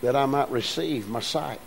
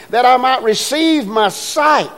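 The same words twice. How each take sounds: First: Quiet, understated ask; softly restating the blind man's request; soft, low simple request. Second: Raised plea. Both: Shown as a demonstration. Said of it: "he just simply asked".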